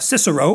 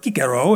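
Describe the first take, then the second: First: The name is said with an English pronunciation. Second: The name is said with a Latin pronunciation.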